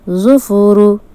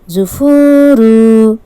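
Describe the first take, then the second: First: Every short vowel is kept short. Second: A short vowel is stretched out long. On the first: The speaker calls it right. "Correct pronunciation" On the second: The speaker calls it wrong. "Incorrect pronunciation"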